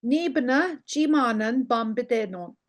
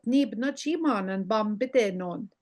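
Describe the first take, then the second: First: "Ni bna, chimanen, bambidenon" in separated, careful chunks; careful learner's pace. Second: "ni bna chimanen bambidenon" run together without breaks; fast talker's version. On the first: Teacher modelling "Ni bna chimanen bambidenon" for learners, carefully spaced. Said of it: "you would normally say it". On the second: Teacher showing a fast talker's "ni bna chimanen bambidenon", run together. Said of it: "if you were a fast talker". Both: Shown as a demonstration.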